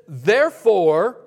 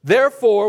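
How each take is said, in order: First: "Therefore" stretched slowly with a rise; drawn-out therefore. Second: "therefore" said louder, falling. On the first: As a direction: hold "Therefore" out, inviting the room. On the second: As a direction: punch "therefore" and drop. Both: Shown as a demonstration. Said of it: "what's the next word?".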